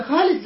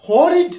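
First: خالد with a light, thin خ and open ا, the wrong way; wrong thin kha. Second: خالد with a full, heavy خ and a dark, rounded ا; heavy emphatic kha. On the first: Teacher shows students the wrong way, thin خالد. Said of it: "لا، خطأ". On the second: Teacher shows students the right way, heavy خالد. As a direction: say خالد with a thick raised خ. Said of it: "خالد هكذا الشيء". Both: Shown as a demonstration.

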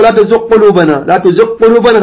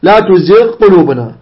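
First: Gh of تزغ lost into a doubled q of قلوبنا; quicker faulty reading, no ghayn in تزغ; wrong assimilation. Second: Gh of تزغ fully sounded before قلوبنا; careful unmerged تزغ قلوبنا; correct clear ghayn. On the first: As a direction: run تزغ قلوبنا together as "tuziq-qulubana". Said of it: "لا تقل". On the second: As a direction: separate the gh of تزغ from the q. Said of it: "خطأ". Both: Shown as a demonstration.

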